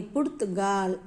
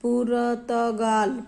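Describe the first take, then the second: First: पुर्तगाल tight, र joined to त; पुर्तगाल the right way; correct pronunciation. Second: पुर्तगाल slow, split as पुर-त-गाल; पुर्तगाल with extra vowels, slow; wrong pronunciation. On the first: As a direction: say पुर्तगाल in one clean run. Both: Shown as a demonstration. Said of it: "पुर्तगाल नहीं".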